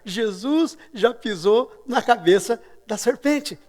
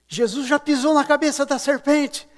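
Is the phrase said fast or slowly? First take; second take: slowly; fast. First: The phrase is said slowly and deliberately. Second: The phrase is shouted loudly and quickly. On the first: "E aí eu repeti mais devagar" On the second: "Aí eu gritei assim"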